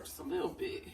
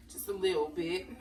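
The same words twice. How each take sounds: First: A breathy whisper to herself, pitched up; whispered aside. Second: Said in the usual way. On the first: Shown as a demonstration. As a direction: whisper it playfully while pouring. Measuring seasoning, talking to herself.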